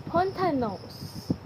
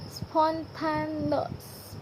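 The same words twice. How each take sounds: First: "spontaneous" said a little slowly, closer to normal; slow reading. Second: "spontaneous" drawn out very slowly, syllable by syllable; very slow careful reading. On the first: Teacher repeating the word for the class, slowed. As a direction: say "spontaneous" slowly but flowing. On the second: Teacher modelling the word for students, extremely slow. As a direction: crawl through "spontaneous" as if for dictation. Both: Shown as a demonstration. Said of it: "Read the following twenty items aloud".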